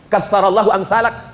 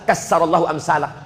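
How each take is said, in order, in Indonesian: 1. Konsonan di tengahnya terdengar seperti 'th' dalam bahasa Inggris. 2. Konsonan di tengahnya terdengar seperti 's' biasa. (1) "Yang semestinya katsarallahu amsalak" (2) "Dirubah jadi sa"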